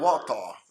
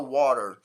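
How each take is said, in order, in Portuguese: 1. Ela é dita com pronúncia britânica. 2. Ela é dita com pronúncia americana. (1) "Ela fala" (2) "Ela não fala water"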